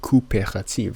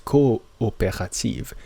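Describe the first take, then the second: First: The double o merges into one vowel sound. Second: The two o's are said as separate vowels. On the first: The speaker calls it wrong. "we don't pronounce it coopérative" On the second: The speaker calls it right. "it's still two separate, distinct"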